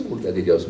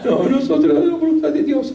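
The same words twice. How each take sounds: First: Said in the usual way. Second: High, pressing exclamation, pitch far up; a priest firmly setting the youths straight; emphatic insistence. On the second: Retold or imitated. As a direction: cry it out as a firm correction.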